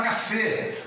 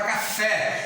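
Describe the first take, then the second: First: Café wrongly ending in closed ê, cafê; closed vowel. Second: Café with a wide open final é; open vowel. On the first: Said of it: "Você não fala café". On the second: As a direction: end café on an open, stressed é. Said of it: "você fala café". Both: Shown as a demonstration.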